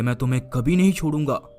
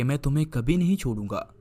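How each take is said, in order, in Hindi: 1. यह कठोर, गुस्से वाले लहजे में कहा गया है। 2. यह प्यार भरे, नरम लहजे में कहा गया है। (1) "क्रोध में कहो" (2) "प्यार में कहो"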